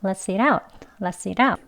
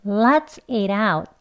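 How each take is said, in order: First: Quick, linked "let's eat out"; fast demonstration. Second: Very slow, drawn-out "Let's eat out"; careful stretched model with flapped t; slow demonstration. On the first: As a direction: rattle it off with a flapped t. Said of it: "빨리 발음하시면". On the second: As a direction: lead learners through it word by word. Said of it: "같이 해볼게요". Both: Shown as a demonstration.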